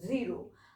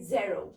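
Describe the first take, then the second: First: The first vowel sounds like 'ee'. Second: The first vowel sounds like 'ay'. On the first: This is the usual everyday way of saying it. "जीरो हम लोग वैसे नॉर्मली क्या बोलते हैं number system में?" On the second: This is how it is said in French. "But in French we से जेरो"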